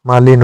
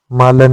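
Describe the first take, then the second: First: मालिन with a short इ; correct form. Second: मालन with no इ; wrong form. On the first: Teacher giving the correct form, मालिन. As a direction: say मालिन as मा-लिन. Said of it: "होता है". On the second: Teacher voicing the wrong form, मालन. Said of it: "नहीं होता". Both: Shown as a demonstration.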